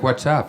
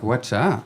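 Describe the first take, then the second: First: Said in the usual way. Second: Pointed echo, pitch jumping on the end; retold challenge. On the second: Comic confronts buddy over stolen word, pointed challenge. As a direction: throw it back as a mock challenge.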